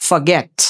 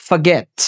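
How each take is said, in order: No difference in how they are said.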